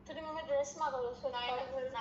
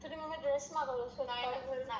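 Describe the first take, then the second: No difference in how they are said.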